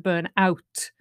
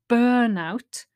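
First: The stress falls on the second part, out. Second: The stress falls on the first part, burn. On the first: It describes the action of becoming exhausted. "the phrasal verb, where you stress the particle" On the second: It names the state of exhaustion. "the noun, where you stress on the first syllable"

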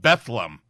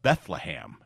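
First: The name is pronounced differently from its spelling. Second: The name is pronounced just as it is spelled. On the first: The speaker calls it right. "you're mispronouncing. It's called Bethlehem" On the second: The speaker calls it wrong. "it's spelled Bethlehem"

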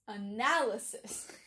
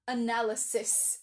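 First: The stress falls on the second syllable, 'nal'. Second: The stress falls on a syllable besides 'nal'. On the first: The speaker calls it right. "It's analysis" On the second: The speaker calls it wrong. "It's not analysis"

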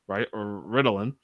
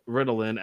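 First: The stress is on the second syllable. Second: The stress is on the first syllable. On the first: It names a fictional plague medicine. "accent on the second syllable" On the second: It names a real psychiatric drug. "accent on the first syllable"

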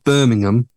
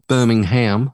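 First: Birmingham is pronounced the British way. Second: Birmingham is pronounced the American way. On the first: It names the English city. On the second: It names the city in Alabama.

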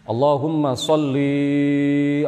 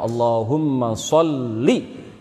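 First: The final vowel of sholli is drawn out long. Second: The final vowel of sholli is kept short. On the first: The speaker calls it wrong. "Kalau dibaca panjang" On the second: The speaker calls it right. "nggak ada ya-nya"

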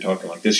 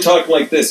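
First: The voice is at a normal, softer volume. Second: The voice is raised and loud. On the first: This is how loud the speaker believes they are. "So you think you're talking like this" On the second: This is how loud the speaker actually is. "You're really talking like this"

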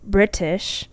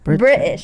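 First: The T sound in the middle is strongly pronounced. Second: The T sound in the middle is dropped. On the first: The speaker sounds high class and posh. "the ones that overpronounce their T's, like British, it's like a more like a high class, like posh" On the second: The speaker sounds lower class and casual. "You don't pronounce the T"

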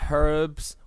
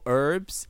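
First: It is said with a non-American pronunciation. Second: It is said with an American pronunciation.

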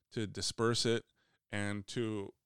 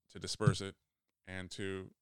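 No difference in how they are said.

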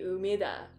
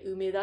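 First: Umeda is said with an English-style pronunciation. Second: Umeda is said with a Japanese pronunciation. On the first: The speaker calls it wrong. "梅田じゃなくて" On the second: The speaker calls it right. "梅田って言った方が"

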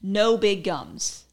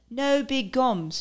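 First: It is said in the speaker's usual American accent. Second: It is said in a put-on British accent.

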